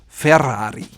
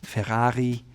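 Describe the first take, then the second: First: It is said with a rolled Italian double R. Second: It is said with a German accent. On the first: The speaker calls it right. "double rolled Italian R" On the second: The speaker calls it wrong. "Germans may say"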